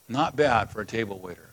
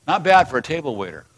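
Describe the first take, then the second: First: Softer, lower echo of "Not bad for a table waiter"; quieter repeat. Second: Said in the usual way. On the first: Shown as a demonstration. Pastor echoes his point to the church, softly. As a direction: let the line settle quietly. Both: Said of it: "repeated softer".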